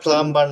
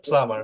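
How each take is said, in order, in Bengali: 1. শব্দের মাঝে b ধ্বনিটি উচ্চারিত হয়। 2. b ধ্বনিটি একেবারেই বাদ দেওয়া হয়। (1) "এটা প্লাম্বার না ভাই" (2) "বিটা সাইলেন্ট থাকবে"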